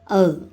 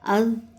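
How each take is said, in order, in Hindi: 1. यह व्यंजन दांतों के बीच से निकली नरम th जैसा है। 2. यह व्यंजन दांतों के बीच से निकली नरम th जैसा है।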